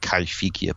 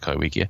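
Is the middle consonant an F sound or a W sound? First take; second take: F sound; W sound. First: The middle consonant is an f sound. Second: The middle consonant is a w sound. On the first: This is the proper native pronunciation. "supposedly pronounced properly Kaifikia" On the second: This follows the written spelling. "Arthur Cruikshank always said it Kaiwikia"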